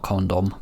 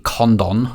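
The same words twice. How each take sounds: First: "Condom" ending in an M, said softer; "Condom" as a soft aside with closed M ending; contrasting mispronunciation. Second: "Condon" with a full, clear DON at the end; "Condon" as CON-DON, second syllable unreduced; careful pronunciation. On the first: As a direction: drop "Condom" quietly as the wrong version. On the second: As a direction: sound out "Condon" slowly, ending in an N. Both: Shown as a demonstration. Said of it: "not Condom".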